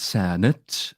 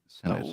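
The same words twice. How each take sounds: First: The second syllable is stressed and drawn out. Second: The first syllable is stressed, second syllable short. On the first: This is how the character says it. The speaker calls it right. "he weirdly lingers on the second syllable" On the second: This is the ordinary way of saying it. The speaker calls it wrong. "as opposed to"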